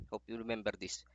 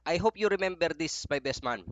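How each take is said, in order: First: Softer. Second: Emphatic. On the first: Softer repeat of the wish. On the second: Emphatic wish to best man. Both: Real, not acted.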